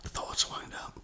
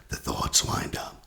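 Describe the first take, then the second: First: Much softer, breathed out as a whisper; whispered repeat. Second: Said in the usual way. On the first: Shown as a demonstration. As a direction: let the echo fade into a whisper. Repeats phrase, second time whispered.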